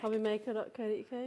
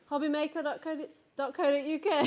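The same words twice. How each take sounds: First: It is said quietly, with a laugh. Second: It is shouted loudly.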